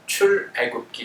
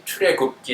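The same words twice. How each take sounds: First: 출애굽기 broken after 출, then 애굽기; separated pronunciation. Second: 출애굽기 in one run, as 추래굽끼; run-together pronunciation. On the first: Teacher repeating the model for class, 출애굽기 separated as 출-애굽기. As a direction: say 출 alone, brief gap, then 애굽기 for 출애굽기. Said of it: "이렇게 발음하셔야 됩니다". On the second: Teacher warning class off a childish-sounding reading, 출애굽기 run together as 추래굽끼. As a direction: link 출 straight into 애 in 출애굽기, like 추래굽끼. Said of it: "이렇게 발음하시면 안 되고요". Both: Shown as a demonstration.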